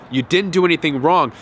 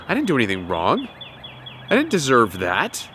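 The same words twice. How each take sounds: First: Said in the usual way. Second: Lower, softer calm inner voice; quietly convince yourself you're blameless; calm self-assurance. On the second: Shown as a demonstration. Abused person calmly reassuring themself, soft and low. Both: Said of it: "develop this mindset".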